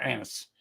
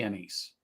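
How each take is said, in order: First: Anise stressed on a short first vowel, AN-iss. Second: Anise with a long ee in the second syllable; anise as uh-NEESE. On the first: Taster correcting to grandmother's word, anise as AN-iss. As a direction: say anise as AN-iss, with a weak ending. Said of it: "She says anise". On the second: Taster on grandmother's biscotti, anise as uh-NEESE. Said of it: "Or anise. She says anise". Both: Shown as a demonstration.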